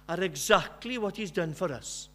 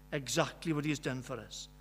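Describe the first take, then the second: First: Said in the usual way. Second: Softer echo. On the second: Real, not acted.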